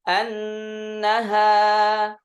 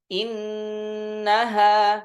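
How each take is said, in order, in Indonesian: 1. Kata itu dimulai dengan vokal a. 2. Kata itu dimulai dengan vokal i. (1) "Fathul hamz" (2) "kasrul hamz"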